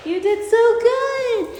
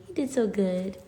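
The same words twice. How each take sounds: First: Very high, slow, loud sung praise for a dog; sung, stretch "so good" into a little tune; sung, sing-song praise. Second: Said in the usual way. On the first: Real, not acted. Owner sings praise to her puppy after the climb.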